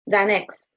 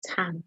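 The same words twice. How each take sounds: First: "than x" with a th at the front, not t; firm "than x", opening on th; th-sound on "than"; tanh as "than". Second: Said in the usual way. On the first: Shown as a demonstration. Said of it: "I think people say than". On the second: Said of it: "not tan".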